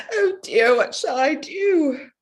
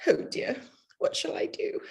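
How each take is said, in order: First: High, loud tearful wail, slow at the end; crying. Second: Despairing whisper. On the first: Bride crying to her father before church, high tearful wail. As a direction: wail it out in tears before the wedding. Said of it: "there, there Jenny is at it now". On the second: Bride despairs to her family about the dress, whispered. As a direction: breathe it out hopelessly, no voice. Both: Acted.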